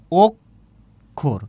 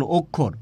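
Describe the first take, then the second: First: অক্ষর very slowly as two beats, "ok" then "khor"; loud first syllable of অক্ষর, long gap, then the second; split into syllables. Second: Said in the usual way. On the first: Shown as a demonstration. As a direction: break অক্ষর into "ok... khor" for repeating. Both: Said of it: "আমার সাথে একটু উচ্চারণ করুন".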